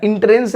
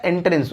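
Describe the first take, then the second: First: एंट्रेंस said with a short i, as in-trens; wrong first vowel. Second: एंट्रेंस said with e, as en-trens; softer, lower en-trens for एंट्रेंस; correct first vowel. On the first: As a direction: start एंट्रेंस with in instead of en. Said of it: "एंट्रेंस नहीं होता है". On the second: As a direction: start एंट्रेंस with en, not in. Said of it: "एंट्रेंस होता है". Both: Shown as a demonstration.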